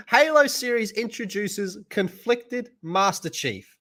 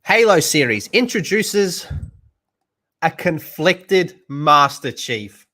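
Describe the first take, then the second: First: Reading while laughing. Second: Headline read. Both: Shown as a demonstration. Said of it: "let me read that again out loud".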